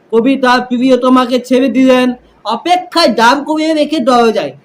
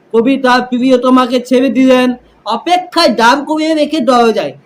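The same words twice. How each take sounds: No difference in how they are said.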